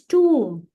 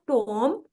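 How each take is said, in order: First: The vowel is a long 'oo' sound. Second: The vowel is a short 'o' sound. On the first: The speaker calls it right. "It's pronounced tomb" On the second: The speaker calls it wrong. "It's not Tom"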